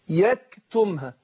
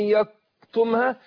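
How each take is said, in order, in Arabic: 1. صوت k خفيف ومعه نفس. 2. صوت k ثقيل مثل q. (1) "الهمس في الكاف" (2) "دخلت كده على القاف"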